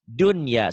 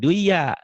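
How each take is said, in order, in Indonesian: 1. N diucapkan dengan jelas sebelum y. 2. N menyatu dengan y yang mengikutinya. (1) "harus dibaca idhar" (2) "jangan dibaca duya"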